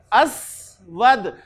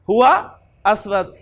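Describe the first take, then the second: First: Drawn-out word. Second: Slow drill. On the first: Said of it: "असवद पे क्या पढ़ूं जी मैं". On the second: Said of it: "ये उलट हो गया". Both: Shown as a demonstration.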